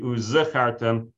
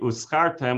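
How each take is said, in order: First: The consonant after the first vowel is a clear z. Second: The consonant after the first vowel sounds like s. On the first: It means you will remember. The speaker calls it right. "So it should be uzechartem" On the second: It means you got rented. The speaker calls it wrong. "It shouldn't be uzchartem, which would be like you got rented"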